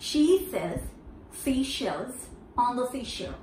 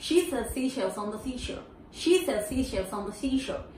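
First: Broken into chunks. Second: Flowing run. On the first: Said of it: "For here it goes". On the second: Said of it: "Once again". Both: Shown as a demonstration.

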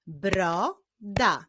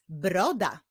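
First: "Broda" as bro, pause, da; "Broda" syllable by syllable; split into syllables. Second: Said in the usual way. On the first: Shown as a demonstration. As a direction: clap out "Broda" in two beats. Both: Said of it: "Wyklaszczmy sylaby w tych wyrazach".

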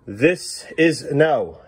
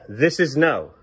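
First: Slow drawn-out no. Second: Said in the usual way. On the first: Shown as a demonstration. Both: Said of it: "Please stop doing this".

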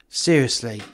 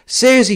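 First: Said in the usual way. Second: "seriously" pitched high and loud; exasperated, raised stress on "seriously"; emphatic repeat. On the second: Acted. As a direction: punch "seriously" with a sharp jump up. Dave repeats it more forcefully.

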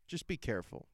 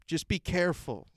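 First: Hushed warning. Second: Said in the usual way. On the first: Shown as a demonstration. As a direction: say it again softly, like a secret caution. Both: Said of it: "repeated warning".

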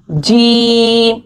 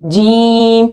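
First: जीम very slow, voice out through the mouth, not the nose; correct jeem. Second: जीम with the sound pushed into the nose; nasal wrong jeem. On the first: Teacher shows students the right जीम. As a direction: draw out a clean जीम. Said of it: "आवाज़ को बाहर निकालना है". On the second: Teacher imitates how some people read जीम. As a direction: show the mistake, a nasal जीम. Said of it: "तो आवाज़ नाक में जाती है". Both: Shown as a demonstration.

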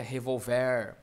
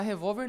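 First: "revolver" stressed on the final "ver"; lower, drawn-out "revolver", ending on a stressed "vér"; stress moved to last syllable. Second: Said in the usual way. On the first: Shown as a demonstration. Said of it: "Se estivesse na última, seria". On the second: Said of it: "Se estivesse na última".

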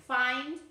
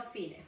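First: "find" with a clear final d, as the right version; "find" with a crisp d sound at the end; correct version. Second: "fine" said without a final d, the way the student said it; "fine" as the mistake, ending on a bare n; wrong version. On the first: Teacher giving the correct word, "find" with the final d. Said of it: "no fine, find". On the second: Teacher showing the student's wrong word, "fine" with no d. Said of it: "no fine". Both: Shown as a demonstration.

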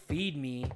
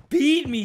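First: Said in the usual way. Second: Higher-pitched mock demand; imitating the baby. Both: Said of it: "he said".

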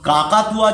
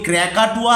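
First: Said in the usual way. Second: ক্র্যাকাটুয়া pronounced the English way, not as Bengali কাকাতুয়া; teacher shows ক্র্যাকাটুয়া with an English kr onset; English-style cockatoo. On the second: Shown as a demonstration. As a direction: say ক্র্যাকাটুয়া as the English word, with a rolled kr cluster at the start. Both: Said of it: "যদি বলি ক্র্যাকাটুয়া".

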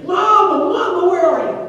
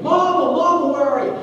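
First: Put-on even higher, louder, panicked child's scream; the lost boy shrieking for mama at full force; really screaming. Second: Put-on high, loud child's scream for his mother; a lost little boy calling out loud, scared; screaming for mama. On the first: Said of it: "now he is really screaming". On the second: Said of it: "now he starts screaming".

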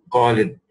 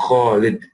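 First: Khalid with a plain k, the wrong way; mispronounced Khalid; wrong pronunciation. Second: Khalid with a rasping throat kh; Khalid, correct guttural kh; correct Arabic kh. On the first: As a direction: say Khalid with k, as learners do. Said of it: "it is not Khalid". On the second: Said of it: "It is Kha". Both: Shown as a demonstration.

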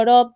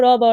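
First: রব joined into one word; word blended aloud. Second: Loud, separate letters র, ব; letters broken apart. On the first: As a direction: blend the letters into a clear রব. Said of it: "শব্দগুলো সুন্দরভাবে জোরে জোরে". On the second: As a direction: sound out র and ব one by one. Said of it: "বর্ণগুলো ভেঙে ভেঙে পড়বে". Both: Shown as a demonstration.

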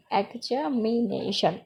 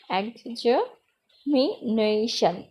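First: examination slowly, parts run closer together; teacher putting examination back together, slowly; joined-up repeat. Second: examination very slowly, exa, mi, na-tion, with gaps; teacher's drawn-out syllable breakdown of examination; split into syllables. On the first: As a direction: say examination slowly with only slight breaks. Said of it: "এরকমটা". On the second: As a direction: sound out examination part by part with pauses. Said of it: "তিনের চেয়ে বেশি অথবা অধিক". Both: Shown as a demonstration.

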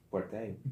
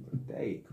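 First: Said in the usual way. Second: Whispered repeat of "Fuerte ahí". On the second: Shown as a demonstration. (susurrando "Fuerte ahí")

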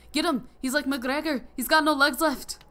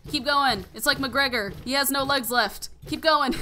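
First: Put-on a loose, higher Irish accent shouted; mimicking a cheering Irish family in a bad Irish accent; terrible Irish accent. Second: Higher, louder cheer egging on the hits; cheering on a beaten enemy, excited. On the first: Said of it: "my terrible Irish accent". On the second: Real, not acted. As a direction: urge it on, half laughing at the joke.

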